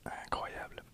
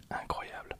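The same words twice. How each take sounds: The two takes are said the same way.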